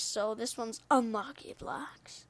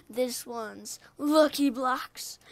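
First: Slow spooky whisper. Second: Slow sing-song with rising end; slow, drawn-out. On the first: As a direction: breathe it out, slow and secret. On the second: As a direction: stretch it out cheerfully, rising. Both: Shown as a demonstration.

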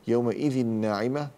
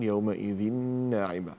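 First: Said in the usual way. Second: يومئذ ناعمة with a long held nasal n; merged tanween. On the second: Shown as a demonstration. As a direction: hum the doubled n linking يومئذ to ناعمة. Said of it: "تنوين بعد نون".

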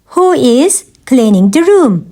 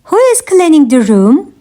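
First: Measured language-lesson delivery; careful teaching repeat. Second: Said in the usual way. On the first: Shown as a demonstration. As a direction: pause after "Who is". Teacher repeats question for learners.

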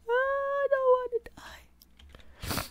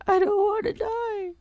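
First: Very high, slow, whispered sob of "I don't wanna die"; hammed-up dying sob; mock sobbing whisper. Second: Very high, wailing "I don't wanna die"; hammed-up sobbing plea; mock crying. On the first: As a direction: fade into a weeping whisper. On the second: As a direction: wail it like a sobbing child. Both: Character about to die.

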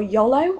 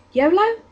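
First: "yolo" with a short first o, as in "doll"; first vowel of "yolo" kept short and open; short-o pronunciation. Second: "yolo" with a long first o, as in "go"; first o of "yolo" rounded into "oh"; long-o pronunciation. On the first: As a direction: say "yolo" as YOL-oh. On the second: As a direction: say "yolo" as YOH-loh. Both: Shown as a demonstration. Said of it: "how people pronounce it".

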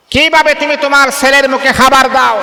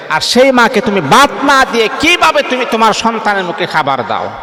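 First: Higher and louder, hammering কিভাবে; impassioned rebuke. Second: Said in the usual way. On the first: Acted. Preacher scolding the son who starves his mother, raised voice. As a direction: repeat the question as a ringing reproach.

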